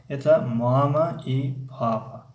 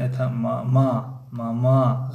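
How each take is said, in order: First: Slow «мама» stressed on the first syllable, MA-ma, with a falling end; «мама» and «папа» hit on the first syllable; correct stress. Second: Slow «мама» with the stress on the second syllable, ma-MA; wrong stress. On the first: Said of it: "баръакс гуфта ғалате". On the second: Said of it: "ғалат". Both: Shown as a demonstration.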